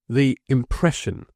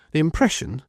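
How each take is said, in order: First: "the impression" slow and lifted, stress on impression; emphasis on the word. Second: Said in the usual way. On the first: Lawyer to Job, slow stress on "the impression". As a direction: lean hard on "impression". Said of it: "with an emphasis on the word".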